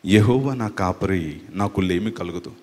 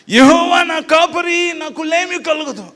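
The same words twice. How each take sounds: First: Lower, loud, slow dramatic delivery; like a film dialogue. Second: Very high, loud, slow shouted verse; shouted recital. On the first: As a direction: deliver it like a hero's movie dialogue. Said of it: "dialogue చెప్తున్నట్టు ఉందిరా". (Cinema dialogue చెప్పినట్టు తక్కువ స్వరంలో) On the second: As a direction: bellow the psalm line like a preacher gone overboard. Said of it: "అరుస్తున్నావేంట్రా?". (చాలా గట్టిగా అరుస్తూ నెమ్మదిగా) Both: Shown as a demonstration.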